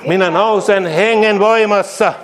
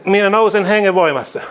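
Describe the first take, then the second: First: Slower, weightier second take of "voimassa"; slow emphatic repeat. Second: Said in the usual way. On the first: Shown as a demonstration. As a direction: draw the line out and land hard on "voimassa". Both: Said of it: "repeated declaration".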